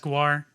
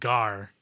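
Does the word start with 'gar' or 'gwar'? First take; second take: gwar; gar. First: It starts with a 'gw' sound, like 'gwar'. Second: It starts with a plain 'g' sound, like 'gar'. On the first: "like the band" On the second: "or is it Gar?"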